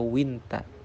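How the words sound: It is read as Egyptian Arabic, 'winta'. "sedangkan dalam amiyah Mesir dibaca winta"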